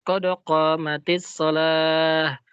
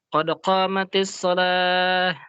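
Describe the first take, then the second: The two takes are said the same way.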